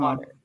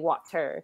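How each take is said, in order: First: The middle consonant sounds like a D. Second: The middle consonant is a clear T. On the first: The speaker calls it right. "the T becomes a D sound" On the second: The speaker calls it wrong. "we don't say"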